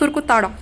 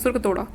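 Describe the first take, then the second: First: The third syllable has an 'aa' vowel. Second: The third syllable has an 'o' vowel. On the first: The speaker calls it wrong. "ताड़ा नहीं" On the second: The speaker calls it right. "तोड़ा करके याद रखो"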